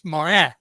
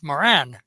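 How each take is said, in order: First: The name is said with French pronunciation. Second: The name is said with American pronunciation. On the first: "the French pronunciation of Morin" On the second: "when you go to the States, it's"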